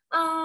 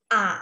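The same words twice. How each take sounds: First: The pitch stays high and level. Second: The pitch dips and then curves up. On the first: "datar dan tinggi" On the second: "seperti ada lekukannya"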